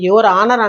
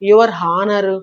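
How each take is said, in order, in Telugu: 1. 'honour' పదం h శబ్దం లేకుండా మొదలవుతుంది. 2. 'honour' పదం h శబ్దంతో మొదలవుతుంది. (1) "యువర్ ఆనర్ అంటాం" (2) "యువర్ హానర్ అలాగ ఉండదు"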